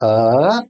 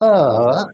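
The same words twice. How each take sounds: First: The voice moves in a simple rise. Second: The voice moves in a simple fall. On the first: "the simple rise" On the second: "the simple fall"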